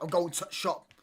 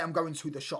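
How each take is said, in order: First: It is said in a Yorkshire accent, dropping 'the'. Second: It is said in a standard accent, with 'the'. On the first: The speaker calls it wrong. "the Yorkshire accent does my nutting because they miss out so many words" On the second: The speaker calls it right. "Why not just say"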